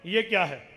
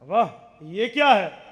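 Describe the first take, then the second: First: It is asked as a plain, curious question. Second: It is said in a delighted, amazed tone. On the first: The speaker wants to be told what it is. "ये क्या है सवाल है, मैं पूछ रहा हूं मुझे बताया जाए" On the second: The speaker is pleasantly surprised by it. "इसका माने ताज्जुब है, खुशी है, हैरानगी है"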